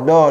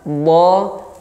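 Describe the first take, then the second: First: The first consonant is a plain light d. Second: The first consonant is a heavy emphatic d. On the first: The speaker calls it wrong. "Jadi dal yang dibaca o, do, do, enggak do" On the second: The speaker calls it right. "Yang benar adalah sisi lidah ditekan ke sisi gigi geraham bagian atas"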